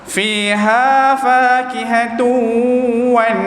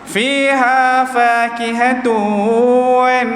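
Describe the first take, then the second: First: The final 'wan' sounds somewhat thick and heavy. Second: The final 'wan' sounds soft and light. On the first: "bunyi dia agak te tebal sedikit" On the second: "lembut, lin sifat dia"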